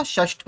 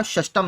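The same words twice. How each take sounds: First: षष्ठ said short, ending in ठ; correct form shown. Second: षष्टम said with an extra म ending; wrong form shown. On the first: Teacher gives students the correct short form षष्ठ. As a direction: give the right form: षष्ठ, no extra syllable. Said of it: "षष्ठ होता है". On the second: Teacher warns students against the form षष्टम with am ending. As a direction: show the error: षष्टम ending in am. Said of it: "षष्टम नहीं होता". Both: Shown as a demonstration.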